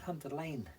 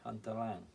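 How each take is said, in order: First: The second word ends in a long 'ay' sound. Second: The second word ends in a short 'ang' sound. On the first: This is how the company says the name. "It's Hunter Lane, they pronounce it, don't they?" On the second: This follows how the name is spelled. "But it's spelled Lang"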